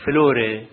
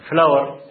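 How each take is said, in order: First: فلوري with an open vowel tail at the end; فلوري said the Italian way, ending in a vowel. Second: فلاور said the English way, ending on a consonant; فلاور as in English, no vowel tail; English word flower. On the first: Teaching the class: فلوري with its Italian vowel tail. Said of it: "ديل أهو". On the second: Teaching the class: فلاور said the English way. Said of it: "الإيطالي يقول لك فلوري". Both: Shown as a demonstration.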